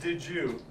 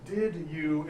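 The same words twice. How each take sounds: First: The d and y merge into a j sound. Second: The d and y are said as separate sounds.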